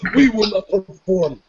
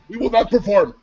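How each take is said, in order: First: It is said slowly and emphatically. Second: It is said at a normal pace.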